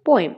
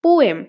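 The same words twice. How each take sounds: First: Said in the usual way. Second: পোয়েম in two clear beats, পো-এম; split into syllables. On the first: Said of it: "কয়টা part হচ্ছে?". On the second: Shown as a demonstration. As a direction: stress and separate both parts of পোয়েম. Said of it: "দুইটা part হচ্ছে". (পোয়েম দুই ভাগে স্পষ্ট করে, পো-এম)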